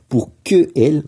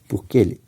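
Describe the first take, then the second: First: The vowel of 'que' is fully pronounced. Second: The vowel of 'que' is dropped and linked. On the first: The speaker calls it wrong. "On devrait dire pour que elle, mais c'est pas joli" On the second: The speaker calls it right. "Donc le E de que s'en va"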